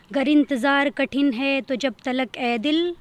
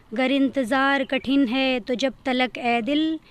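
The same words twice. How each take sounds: The two takes are said the same way.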